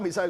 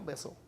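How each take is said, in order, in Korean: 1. 세 음절로 발음하고, 'il'로 끝나요. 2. 두 음절로 발음하고, 'missul'처럼 해요. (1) "미사일이란 발음은 없어요" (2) "미술이라고 그래요"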